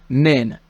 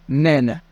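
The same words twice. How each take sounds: No difference in how they are said.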